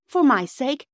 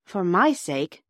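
First: FOR MY SAKE high and loud; desperate plea. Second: FOR MY SAKE in a less raised voice; restrained plea. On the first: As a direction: beg "for my sake" in a raised voice. Phyllis pleads with unconscious boy. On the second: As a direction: repeat "for my sake" more steadily. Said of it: "repeated Bobby". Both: A narrator's reading.

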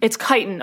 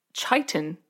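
First: Chitin said as KY-tun with a hard k; corrected pronunciation. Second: Chitin said as SHY-tun with a soft sh sound; mispronounced chitin. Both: Real, not acted. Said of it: "Yeah, chitin".

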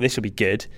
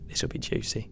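First: Said in the usual way. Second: Gleeful whisper; softer, whispered inner voice; whispered thought. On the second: Retold or imitated. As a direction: whisper it like a guilty pleasure. Retells eager thought reading article.

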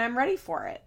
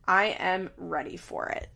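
First: Said in the usual way. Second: "I am ready for it" said deliberately, word by word; emphatic restatement. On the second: Real, not acted. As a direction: spell out "I am" in full, with weight.

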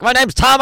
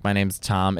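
First: Higher, mock-frantic introduction; stressed TV contestant. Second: Said in the usual way. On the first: Mocking American TV contestants' introductions, frantic and stressed. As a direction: introduce yourself as if in a panic. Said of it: "everything's so stressful". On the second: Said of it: "it can't just be like".

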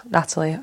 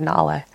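First: "Natalie" with every syllable clear, NAT-a-lie; Natalie said in full. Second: "Natalie" clipped Mancunian style, the middle t dropped to a glottal stop. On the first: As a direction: say "Natalie" carefully, all three syllables. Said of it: "certain ways to pronounce things". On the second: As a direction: swallow the t in "Natalie". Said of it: "I've never said Natalie". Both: Shown as a demonstration.

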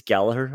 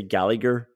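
First: Gallagher with a silent middle g; correct pronunciation. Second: Gallagher with a hard middle g; English mispronunciation. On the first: Shown as a demonstration. Host happy to correct people on that front, correct pronunciation. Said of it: "I'm happy to correct people". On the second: Retold or imitated. Host quoting how English commentators say it, mispronunciation. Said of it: "commentators and English people say Gallagher".

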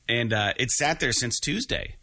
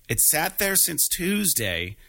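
First: Said in the usual way. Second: It sat there since Tuesday drawn out slowly, pitched higher; slow, higher emphatic retelling; slow emphatic repeat. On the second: Real, not acted. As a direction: lean on it slowly, in disbelief.

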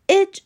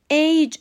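First: اِج said with a short e, 'ej'; short-vowel 'ej' for اِج; word-final age pronunciation. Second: ایج said like English 'age', with a gliding 'ey'; long-vowel 'eyj' for ایج; standalone age pronunciation. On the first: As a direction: say اِج short, as the ending of 'message'. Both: Shown as a demonstration.

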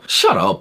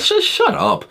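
First: Said in the usual way. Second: High snap. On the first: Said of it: "repeated dismissal". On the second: Real, not acted. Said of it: "snapping at critics".

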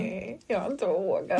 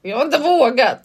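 First: Quiet, slow mumble, half swallowed; sheepish mumble. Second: Said again louder and higher, clearly; louder repeat. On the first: Admitting to her friend, slow embarrassed mumble. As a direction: confess it under your breath. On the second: Repeating for a friend who didn't hear, louder and clear. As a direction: repeat it so she finally hears. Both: Real, not acted.

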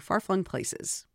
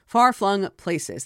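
First: "Far-flung places" slow and softer; careful enunciation. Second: "Far-flung places" said slowly with each sound clear; careful enunciation. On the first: Author repeats the tongue twister, slow and soft "Far-flung places". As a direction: say "Far-flung places" slowly and quietly, each sound clear. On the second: Author retries a tongue twister, slow careful "Far-flung places". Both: Shown as a demonstration. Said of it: "That's a little bit of a tongue twister".

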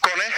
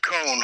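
First: "Kone" in two syllables, KO-neh; "Kone" with short o and a clear "neh" ending; Finnish pronunciation. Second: "cone" as one syllable with silent e; "cone" rhyming with "bone", no final vowel; American pronunciation. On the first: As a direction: say "Kone" the Finnish way, sounding the final e. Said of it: "once again, a Finnish word". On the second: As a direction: say "cone" like ice-cream cone, American style. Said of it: "as the Americans might probably pronounce". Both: Shown as a demonstration.

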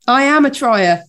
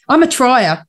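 First: I am a trier, with am leaned on firmly; stress on am. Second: Said in the usual way. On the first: Shown as a demonstration. Insisting to her co-host that she is a trier, stress on am. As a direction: push the word am to insist. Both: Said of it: "I always say that".

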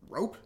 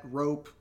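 First: Surprised rising question; puzzled question. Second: Said in the usual way. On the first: Real, not acted. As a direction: ask it in disbelief. Puzzled by item on list.

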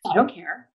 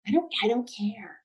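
First: Said in the usual way. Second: Soft, breathy whisper. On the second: Shown as a demonstration. Co-host echoing the quote, whispered. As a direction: breathe the words out with no voice. Podcast hosts recapping a dance episode.

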